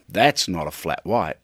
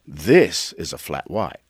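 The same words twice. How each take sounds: First: A hint of Dundee, waving it away; Dundee-style scoff. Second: Slower, lower put-on voice, This stressed; Dundee-style boast. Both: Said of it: "I thought".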